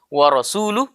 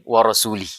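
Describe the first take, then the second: First: The word ends with a 'u' vowel. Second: The word ends with an 'i' vowel. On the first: God and His messenger both oppose the idolaters. The speaker calls it right. "harakatnya yang harusnya wa rasuluh" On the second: God opposes the idolaters and His own messenger. The speaker calls it wrong. "menjadi wa rasuli"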